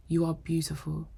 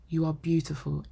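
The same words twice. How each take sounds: The two takes are said the same way.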